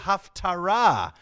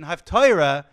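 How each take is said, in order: First: It is said with a Hebrew pronunciation. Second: It is said with an old Yiddish pronunciation. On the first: It comes from a word meaning conclusion. The speaker calls it right. "but it's really Haftarah" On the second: It sounds like half of the Torah. The speaker calls it wrong. "The old Yiddish pronunciation"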